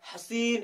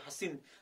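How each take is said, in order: First: The final 'ee' vowel is drawn out long. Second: The final 'ee' vowel is said short, lightly. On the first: The speaker calls it wrong. "ऐसे नहीं कर सकते" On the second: The speaker calls it right. "लेकिन हम लोग कैसे पढ़ते हैं, हसीन"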